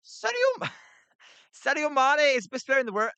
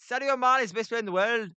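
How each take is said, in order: First: High, giggly attempt at a Scouse accent; breaking up laughing mid Scouse impression. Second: Fast, raised Scouse try that slips into Irish; Irish-sounding Scouse attempt. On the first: To chat asking for Scouse, a laughing high Scouse accent. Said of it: "can you give us your Scouse". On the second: Failed Scouse for the chat, fast accent slipping Irish. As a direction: rattle off the Liverpool line, accent drifting Irish. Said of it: "that's Irish".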